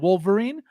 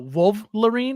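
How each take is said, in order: First: The L sound comes before the V sound. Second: The L sound comes after the V sound. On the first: It follows the correct spelling of the name. The speaker calls it right. "instead of" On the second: It follows the misspelling on the product. The speaker calls it wrong. "they spelled it W O V L"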